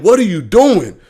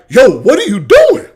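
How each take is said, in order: First: It sounds disapproving and critical. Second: It sounds amazed and impressed.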